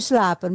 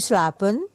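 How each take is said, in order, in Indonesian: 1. Diucapkan dengan intonasi perintah. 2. Diucapkan dengan intonasi bertanya. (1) "kalau perintah"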